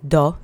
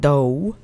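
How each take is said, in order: First: The vowel is a single pure sound. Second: The vowel glides into a second sound. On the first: The speaker calls it right. "keep those vowels monosyllabic, so it's do" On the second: The speaker calls it wrong. "not do"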